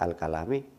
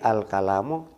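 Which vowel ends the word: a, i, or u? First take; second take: i; u. First: The word ends with an i vowel. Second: The word ends with an u vowel. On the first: The speaker calls it wrong. "tidak pula dibaca al dibaca al-kalami" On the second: The speaker calls it right. "al-kalamu dalam susunan ini"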